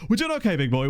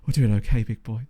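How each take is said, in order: First: It is said in an ordinary speaking voice. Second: It is said in a low, sultry voice. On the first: "it just sounds weird coming out of my mouth" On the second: "I just sound like a sex phone line now"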